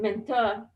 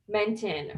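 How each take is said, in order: First: The name is said in a posh, affected way. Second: The name is said in a plain, ordinary way.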